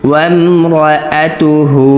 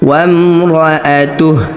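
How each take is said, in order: First: The word ends with a short u vowel. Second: The word ends on a bare h consonant. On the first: The reading continues without stopping. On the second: The reader stops on this word.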